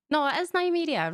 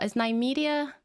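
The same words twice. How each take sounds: First: "Nymeria" settled with a falling close; confirming. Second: "Nymeria" asked with a doubtful lift; checking whether it's "Nymeria"; unsure question. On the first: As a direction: state "Nymeria" as certain. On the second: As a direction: query the name "Nymeria". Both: Real, not acted.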